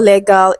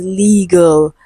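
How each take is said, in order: First: "legal" with a short e and full a, leh-gal; mispronounced legal. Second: "legal" with long ee and weak ending, LEE-gul; corrected pronunciation. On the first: Teacher shows students the mistake, "legal" said as leh-gal. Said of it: "the word is not legal". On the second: Teacher corrects the word for students, "legal" said as LEE-gul. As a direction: say "legal" slowly as LEE-gəl. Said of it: "it is legal". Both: Shown as a demonstration.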